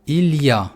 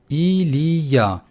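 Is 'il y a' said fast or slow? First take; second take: fast; slow. First: It is said quickly, syllables run together. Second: It is said slowly, syllable by syllable. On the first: "его произношу э, побыстрее" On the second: "Если я медленно считаю"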